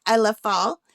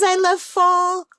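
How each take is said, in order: First: Said in the usual way. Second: Excited. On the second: Real, not acted. Reads the cute painting's text.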